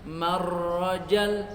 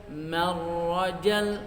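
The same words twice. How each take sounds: No difference in how they are said.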